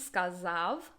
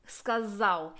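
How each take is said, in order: First: The word ends with a V sound. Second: The word ends with a W sound. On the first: "ends with a v" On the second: "That sounds so Polish"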